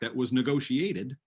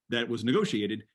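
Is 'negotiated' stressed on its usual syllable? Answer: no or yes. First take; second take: no; yes. First: Negotiated has stress on an unusual syllable. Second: Negotiated has stress on its usual syllable. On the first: The speaker calls it wrong. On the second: The speaker calls it right.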